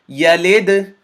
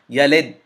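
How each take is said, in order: First: The final d is released with an echoing bounce. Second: The final d stops abruptly with no echo. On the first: The speaker calls it right. "because I bounced or echoed the sound of the dal" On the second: The speaker calls it wrong. "If I were to not do the qalqala"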